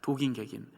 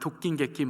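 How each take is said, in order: First: The middle consonants are pronounced plain and soft. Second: The middle consonants are pronounced tense and strong. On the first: "원래 발음은" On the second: "좀 세게 발음해서 말하면"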